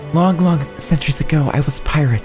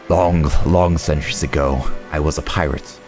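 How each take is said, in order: First: It is said in a put-on girl voice. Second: It is said in the speaker's normal voice.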